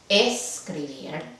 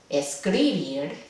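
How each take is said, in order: First: The stress is on the first syllable. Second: The stress is on the second syllable.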